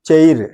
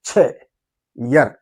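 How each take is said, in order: First: The word is said as one short syllable. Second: The word is split into two syllables. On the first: The speaker calls it wrong. "చైర్ అంటాం కదా మనం" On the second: The speaker calls it right. "కొంచెం బెటర్గా pronounce చేస్తే బాగుంటుంది"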